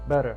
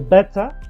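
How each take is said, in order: First: The middle t is a soft, d-like tap. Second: The middle t is a crisp, clear t. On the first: "American people usually they say better" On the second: "you can say better"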